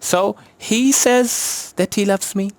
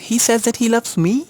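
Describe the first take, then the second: First: The stress falls on the word says. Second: The stress falls on the last word, me. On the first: He only says so, or believes so. "अब हम सेज" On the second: Surprisingly, he loves this unloved person. "Nobody loved मी ever"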